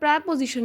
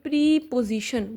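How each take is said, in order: First: The first syllable has a short 'eh' vowel. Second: The first syllable has a long 'ee' vowel. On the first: The speaker calls it wrong. "इसका word प्रेपोजिशन नहीं" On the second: The speaker calls it right. "इसको बोलेंगे प्रीपोजिशन"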